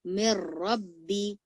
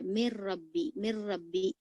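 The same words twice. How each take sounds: First: मिर रब्बी joined, slow, with a thick र; slow, merged मिर रब्बी; joined heavy r. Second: मिर रब्बी with मीम and र said apart; मिर रब्बी said unjoined, as the mistake; wrong separated reading. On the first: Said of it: "इसको मोटा पढ़ेंगे". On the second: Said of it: "तो ये गलत होगा". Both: Shown as a demonstration.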